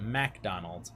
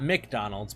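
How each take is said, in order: First: "MacDonald" with a full "mack" at the front; quieter, lower "MacDonald" with open MAC; Mac pronunciation. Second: "McDonald's" starting with a short "mick"; fast-food "McDonald's", reduced first syllable; Mick pronunciation. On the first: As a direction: say "MacDonald" as mack-DON-ald. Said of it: "M A C". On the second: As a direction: say "McDonald's" as mick-DON-alds, like the chain. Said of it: "rather than the chain of fast food". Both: Shown as a demonstration.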